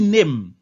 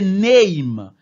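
First: The vowel is a steady sound without a glide. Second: The vowel glides like 'ay' through the word. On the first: The speaker calls it wrong. "ou pas dit name" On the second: The speaker calls it right. "mais c'est name"

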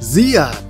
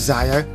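First: The name is said as Zia. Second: The name is said with two syllables, Zaya. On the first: The speaker calls it right. "it was actually" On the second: The speaker calls it wrong. "I was actually saying it wrong the whole time. I thought it was Zaya"

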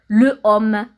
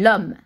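First: The article keeps its vowel before homme. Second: The article loses its vowel before homme. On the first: The speaker calls it wrong. "on ne peut pas dire le homme" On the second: The speaker calls it right. "On dit l'homme"

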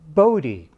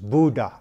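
First: The name is said with an American pronunciation. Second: The name is said with a Dutch pronunciation. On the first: This is how coworkers said the name. "his colleagues at Bell Labs ... they called him" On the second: This is how the family said the name. "His mother preferred the Dutch pronunciation, which I've been told is"

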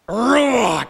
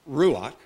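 First: The final consonant is harsh and from the throat. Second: The final consonant is soft, not from the throat. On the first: The speaker calls it right. "but Ruach. It's guttural" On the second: The speaker calls it wrong. "Not Ruach"

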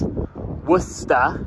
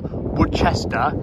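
First: The R in the word is silent. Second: The R in the word is sounded. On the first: The speaker calls it right. "The R's kind of silent, so you say, ignore the R" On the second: The speaker calls it wrong. "It is not Worcester"

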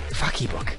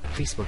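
First: An extra stressed 'ee' syllable follows 'Face'. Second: It is said as two plain syllables. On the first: The speaker calls it wrong. "he puts emphasis on the E" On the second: The speaker calls it right.

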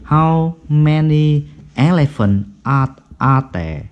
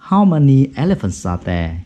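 First: Elephants and are are said as separate words. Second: Elephants runs straight into are without a break. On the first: The speaker calls it wrong. "nếu mà đọc tách ra thì là gì?" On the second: The speaker calls it right. "Thì nối âm"

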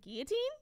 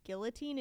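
First: The L sound is left out. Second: The L sound is clearly pronounced. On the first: "not pronounce the L's" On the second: "There's L's in there"

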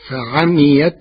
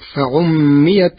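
First: The vowel after ayn is a, with single m. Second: The vowel after ayn is u, with doubled m.

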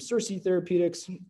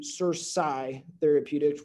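First: The second syllable of the name sounds like 'see'. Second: The second syllable of the name sounds like 'sigh'. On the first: The name echoes a famous TV villain. The speaker calls it wrong. "rebrand ourselves from CerSci Therapeutics" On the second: The name follows its spelling. The speaker calls it right. "which is probably phonetically the right way to say it anyways"

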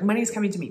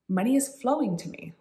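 First: It is said in a tense, grasping way. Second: It is said in a calm, relaxed way.

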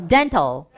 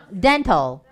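No difference in how they are said.

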